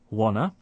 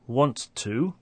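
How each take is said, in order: First: Both t sounds are dropped entirely. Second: The t sounds are pronounced in both words.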